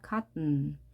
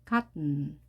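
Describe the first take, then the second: No difference in how they are said.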